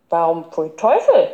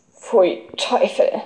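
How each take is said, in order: First: Quizzical echo, lifting at the end; puzzled inquiry. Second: Slow, muted ugh of distaste; disgusted murmur. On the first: Small boy querying the other's disgust, puzzled. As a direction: ask why, mildly baffled. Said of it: "erkundigte sich mitten zwei der Jüngere". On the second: Boy told he must eat fish, disgusted murmur. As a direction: recoil from the very thought. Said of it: "murmelte Emil und verzog das Gesicht". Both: A narrator's reading.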